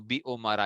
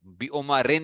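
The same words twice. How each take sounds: First: बी उमरा with an open "aa", no "n"; ending without tanween. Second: बी उमरिन closed off with an "in" sound; wrong tanween ending. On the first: Teacher showing the genitive example, बी उमरा ending in open "aa". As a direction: end बी उमरा on the vowel. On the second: Teacher warning children off kasra and tanween, बी उमरिन ending in "in". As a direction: finish बी उमरिन on "i" plus "n". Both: Shown as a demonstration. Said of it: "बी उमरिन नहीं पढ़ना".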